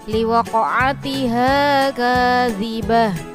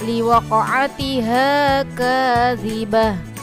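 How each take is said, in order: First: The last word ends with an h sound. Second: The last word ends with an h sound.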